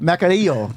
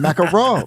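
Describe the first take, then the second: First: The name ends with the sound '-arillo'. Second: The name ends with the sound '-arro'. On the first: The speaker calls it right. "I said I was close" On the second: The speaker calls it wrong. "No, you didn't"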